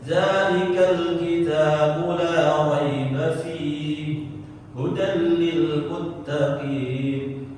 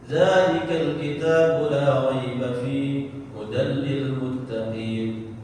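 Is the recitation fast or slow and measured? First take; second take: slow; fast. First: It is recited slowly with full vowel lengths. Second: It is recited quickly with long vowels shortened. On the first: "maka bacanya kadarnya yaitu dengan tartil" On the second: "Yang dua harokat jadi satu harokat"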